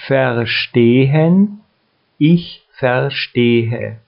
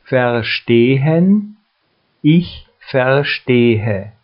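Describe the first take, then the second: No difference in how they are said.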